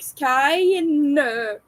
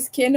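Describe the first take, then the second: First: It rhymes with the word line. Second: It sounds like the word skin. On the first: "pronounces it Skine" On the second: "pronounce it skin, like human skin"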